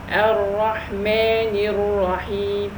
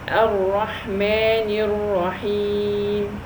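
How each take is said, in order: The two takes are said the same way.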